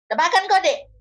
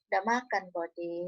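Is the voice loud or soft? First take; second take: loud; soft. First: It is said higher and louder, more bluntly. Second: It is said low and soft, almost inaudible. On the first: It is said casually to a younger sibling. "beda kalian kalau cakap sama adik kalian" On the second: It is said tenderly to a romantic partner. "Pada umumnya rendah kan? Ya, bahkan cenderung nyaris tak terdengar"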